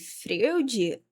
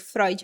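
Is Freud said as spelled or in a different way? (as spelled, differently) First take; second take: as spelled; differently. First: The name is read the way it is written. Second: The name is said differently from its spelling. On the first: It was read from the page for the first time. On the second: Someone else said it aloud in class.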